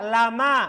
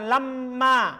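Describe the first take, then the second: First: The m sound is short and single. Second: The m sound is doubled and held. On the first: The speaker calls it right. "Antum baca lama" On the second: The speaker calls it wrong. "Bukan lamma"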